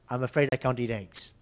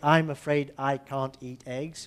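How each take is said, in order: First: Final consonants slide into the following vowels. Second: Each word is said separately, without linking. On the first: The speaker calls it right. "The consonant f- slides to vowel. We say" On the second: The speaker calls it wrong. "we don't say"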